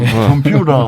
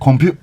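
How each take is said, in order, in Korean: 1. 미국식 억양으로 발음하고 있어요. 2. 코크니식 억양으로, T 발음을 생략해서 발음하고 있어요. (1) "미국 사람들은 컴퓨터 하지만" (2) "그쪽 사람들 T 발음 안 하니까 뭐라 하면 컴퓨터"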